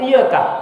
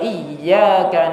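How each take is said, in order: First: The y sound is short and single. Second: The y sound is held and doubled. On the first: The meaning of the word changes. The speaker calls it wrong. "tidak mentasdidkan iyaka, dibaca iyaka" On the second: The meaning stays correct. The speaker calls it right. "benar kan tasdidnya"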